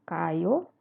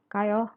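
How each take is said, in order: First: The pitch rises at the end. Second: The pitch stays level at the end. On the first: It asks whether someone is going. "kalau nanya, dia naik" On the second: It invites someone to go together. "kalau ajakan dia datar aja"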